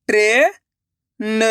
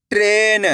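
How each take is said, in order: First: "ट्रेन" split slowly as tre, long pause, na; sounded out by letters. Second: Said in the usual way. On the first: Shown as a demonstration. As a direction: break "ट्रेन" in two, the first part rising. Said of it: "अक्षर का उच्चारण करके". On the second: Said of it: "तो मिलके बन जाएगा".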